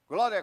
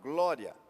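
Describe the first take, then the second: First: It is said fast and repeated. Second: It is said at a normal pace.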